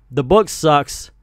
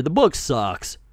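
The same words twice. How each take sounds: First: "The book sucks" said slower, each word weighted; slower, emphatic repeat. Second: Said in the usual way. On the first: Real, not acted. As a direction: land it slowly as the verdict.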